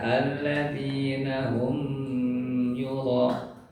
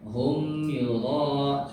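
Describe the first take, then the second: First: The m is nasalized and held longer. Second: The m is clear and short, without nasal holding. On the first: The speaker calls it wrong. "Jadi jangan dibaca" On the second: The speaker calls it right. "seperti itu Bapak Ibu"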